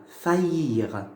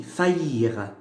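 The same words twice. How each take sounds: First: Faillir said again, ya glide in the middle, pitch back up; pronunciation demo repeated. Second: Faillir with the ya glide in the middle, lower pitch; pronunciation demo. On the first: Teacher repeats the mid-word yod, second take. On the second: Teacher shows yod mid-word, first take. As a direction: model faillir. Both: Shown as a demonstration. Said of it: "j'entends le ya".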